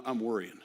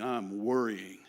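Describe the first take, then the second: First: Said in the usual way. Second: "worrying" drawn out longer; emphatic, stretched-out "worrying"; stress on worrying. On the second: Real, not acted. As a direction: lean hard and long on "worrying". Restates it as far stronger worrying.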